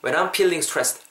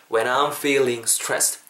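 First: "feeling" mispronounced as "peeling"; wrong example, P starting "feeling"; higher-pitched "feeling" turned into "peeling". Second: "feeling" with a clear F and long ee; "when I'm feeling stressed", F kept clear; correct F sound. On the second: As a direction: model "feeling stressed" with a true F. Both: Shown as a demonstration. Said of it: "안 돼요".

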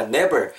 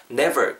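First: "never" mispronounced as "neber"; "never" with B replacing V; wrong B sound. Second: "never" with a true V; "never" with V, not B; correct V sound. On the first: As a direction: let the lips touch for a B in "never". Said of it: "N E B E R로 듣기거든요". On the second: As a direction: put upper teeth on the lip in "never". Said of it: "꼭 V 사운드는 윗니". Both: Shown as a demonstration.

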